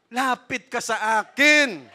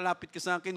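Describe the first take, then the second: First: "Lapit ka sa akin" said louder, higher and slow, every word drawn out; rising plea. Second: Said in the usual way. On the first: Shown as a demonstration. Preacher urging the congregation to come to God, slow loud plea. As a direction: plead "Lapit ka sa akin" slowly and loudly, pitch lifted. Jesus' invitation, repeated louder later.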